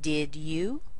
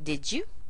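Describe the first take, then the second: First: The D and Y sounds are kept separate. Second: The D and Y merge into a J sound. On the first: "here I could say" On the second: "I could combine these together and make a J sound"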